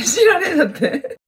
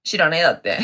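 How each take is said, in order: First: Higher, laughing repeat. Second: Said in the usual way. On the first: Shown as a demonstration. (笑いながら繰り返す)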